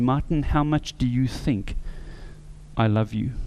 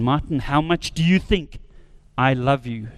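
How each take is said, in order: First: It is said at a soft, normal volume. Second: It is said very loudly, almost screamed.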